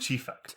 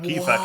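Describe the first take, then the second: First: It begins with a ch sound, rural Palestinian. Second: It begins with a k sound, urban Palestinian.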